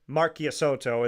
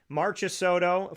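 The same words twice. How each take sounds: First: The name is pronounced with Italian sounds. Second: The name is pronounced with American English sounds. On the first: "is how you say it in Italian" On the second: "for the Americanized version of it"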